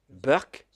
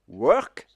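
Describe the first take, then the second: First: It begins with a B sound, Indian English. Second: It begins with a W sound, standard English.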